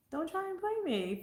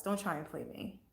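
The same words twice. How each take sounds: First: Don't try and play me, pitched much higher, sassy; high mock warning. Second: Said in the usual way. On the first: Real, not acted. Warning people not to play her, sassy and high. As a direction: repeat it up high with attitude.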